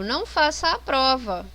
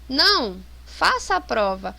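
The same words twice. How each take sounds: First: It is said without a pause after não. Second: There is a pause after não.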